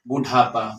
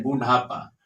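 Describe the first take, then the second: First: बुढ़ापा said with a hard retroflex ट sound, like "बुटापा"; बुढ़ापा with a hard ट instead of the flapped ढ़; mispronounced word. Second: बुढ़ापा said with the flapped aspirated ढ़ in the middle; बुढ़ापा with a soft retroflex flap ढ़, not ट; corrected pronunciation. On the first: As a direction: say बुढ़ापा wrongly, with a stop ट in the middle. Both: Shown as a demonstration. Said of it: "बुढ़ापा नहीं".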